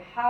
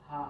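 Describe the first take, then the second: First: "হা" moved out of the small ha's place; substituted "হা". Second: "হা" as the small Arabic ha. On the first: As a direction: say "হা" as the other ha, replacing the small one. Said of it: "এটা ভুল হবে কি না?". (ছোট হা-এর জায়গায় অন্য হা-এর উচ্চারণে "হা") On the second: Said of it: "এটা হচ্ছে ছোট হা". (ছোট হা-এর উচ্চারণে "হা") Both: Shown as a demonstration.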